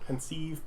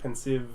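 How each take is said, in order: First: It is said differently from the word 'pensive'. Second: It sounds just like the word 'pensive'. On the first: The speaker calls it right. "so penceive" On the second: The speaker calls it wrong. "Pensive just sounds like being pensive"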